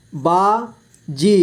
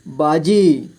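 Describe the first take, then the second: First: बाजी split slowly into बा, जी; syllable by syllable. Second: Said in the usual way. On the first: Shown as a demonstration. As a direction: stretch and separate बा and जी in बाजी. (बाजी को तोड़कर धीरे: बा, जी) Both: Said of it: "इस तरह से आपको".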